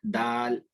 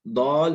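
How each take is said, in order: First: दाल with a long, open aa; दाल, light "daal" without rounding; open-mouthed articulation. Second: दौल with a rounded aw; दौल, thick vowel in place of open aa; wrong rounded vowel. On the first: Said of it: "बिल्कुल खोल के पढ़ना है". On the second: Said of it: "इसको दौल नहीं पढ़ना". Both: Shown as a demonstration.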